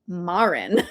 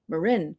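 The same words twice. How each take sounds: First: It uses a pronunciation heard on the East Coast. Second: It uses the local Marin County pronunciation. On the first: "some people from the East Coast, cough cough, would pronounce it Marin" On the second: "I grew up in Marin County, and so I assumed everybody would pronounce Marin Marin"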